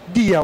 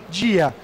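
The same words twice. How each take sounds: First: The word starts with a plain 'd' sound. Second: The word starts with a 'dj' sound. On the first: The speaker calls it right. "É sempre o som de D puro" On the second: The speaker calls it wrong. "paulistas falam D J no lugar de D"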